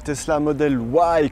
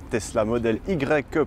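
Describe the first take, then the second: First: The name is said with American English pronunciation. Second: The name is said with French pronunciation. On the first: "comme disent les Américains" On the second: "pour le prononcer à la française"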